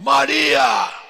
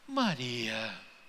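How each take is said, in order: First: The name is called out sharply and harshly. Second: The name is said softly and tenderly. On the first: The speaker is scolding or summoning her. "Não foi algo do tipo" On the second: The speaker is comforting her with love. "Sabe aquele toque de amor?"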